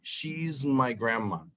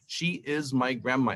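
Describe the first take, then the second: First: She and is are joined into one syllable. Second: She and is are said as two full words. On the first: It sounds natural and relaxed. The speaker calls it right. "poner el apóstrofe allí para decir" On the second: It sounds stiff and mechanical. The speaker calls it wrong. "Eso suena como un robot"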